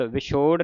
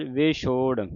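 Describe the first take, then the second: First: ਵਿਛੋੜ with a short "vi" at the start; quick first vowel in ਵਿਛੋੜ, as "vichhor"; wrong pronunciation demo. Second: ਵਿਛੋੜ with "ve" at the start; correct pronunciation demo. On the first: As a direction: show the mistaken short-i ਵਿਛੋੜ. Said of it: "ਵਿਛੋੜ ਨਹੀਂ ਕਹਿ ਦੇਣਾ". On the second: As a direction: open the first vowel of ਵਿਛੋੜ to an e, "vechhor". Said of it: "ਲਾਂ ਦੀ ਆਵਾਜ਼". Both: Shown as a demonstration.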